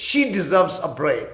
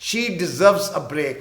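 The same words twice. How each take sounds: First: Very slow, clear teacher's read; slow example line; slow model sentence. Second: Very slow, clear teacher's read; slow example line; slow repeat. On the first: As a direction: stretch it out for learners. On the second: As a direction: repeat it slowly for learners. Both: Shown as a demonstration. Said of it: "کوئی کہتا ہے اسے آرام چاہیے".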